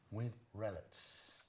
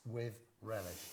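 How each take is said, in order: First: Slow, drawn-out With relish; slow deliberate line. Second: Said in the usual way. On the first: Shown as a demonstration. Coaching the friend with a slow deliberate line. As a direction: spell out each word for the actor. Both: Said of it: "got him to say".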